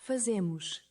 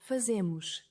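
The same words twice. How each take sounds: Both takes have the same delivery.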